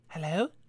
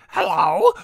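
First: It is said in a plain, generic girl voice. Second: It is said in an annoying girl voice. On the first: "Can I do a generic girl voice?" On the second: "Maybe I should just make her annoying"

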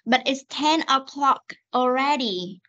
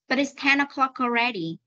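First: The sentence is said slowly with separated words. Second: The sentence is said quickly with linked sounds. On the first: "đọc chậm cho cô nào" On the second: "Bây giờ đọc nhanh nhé"

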